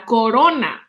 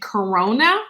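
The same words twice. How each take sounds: First: It is said with Spanish pronunciation. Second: It is said with English pronunciation. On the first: "the name for a crown is eh, la corona" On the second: "in English, we're kind of pronouncing it corona"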